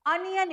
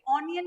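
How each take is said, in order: First: अनियन opening on a short "uh" sound; correct pronunciation. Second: ऑनियन opening on a rounded "aw" sound; wrong pronunciation. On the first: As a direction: say अनियन with "uh" first, not "on". (अनियन, शुरू में छोटा "अ") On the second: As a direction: say ऑनियन with "on" first, not "uh". (ऑनियन, शुरू में गोल "ऑ") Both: Shown as a demonstration. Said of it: "ये ऑनियन नहीं बोलना है".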